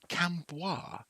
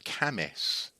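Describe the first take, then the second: First: It is said as spelled, with a b sound. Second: It is said like 'Camis', with no b sound. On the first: The speaker calls it wrong. "I fell into this trap as well" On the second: The speaker calls it right. "it's called Camis"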